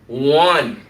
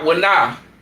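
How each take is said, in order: First: The two syllables are blended into one. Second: The two syllables are said separately. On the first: The speaker calls it right. "you need to pronounce them together" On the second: The speaker calls it wrong. "not wana"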